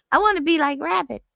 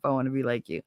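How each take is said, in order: First: Much higher, louder squeal of adoration; gushing fan voice. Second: Said in the usual way. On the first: Shown as a demonstration. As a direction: squeal it like an adoring little fan.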